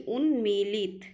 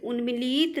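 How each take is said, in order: First: उन्मीलित as "un-meelit", long "mee"; correct pronunciation. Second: उन्मीलित as "unmileet", long final vowel; wrong pronunciation. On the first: Teacher correcting students, उन्मीलित with long "mee". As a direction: hold "mee", short "lit" in उन्मीलित. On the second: Teacher showing students the error, उन्मीलित as "unmileet". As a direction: stretch the last vowel of उन्मीलित. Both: Shown as a demonstration. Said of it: "उन्मीलित नहीं".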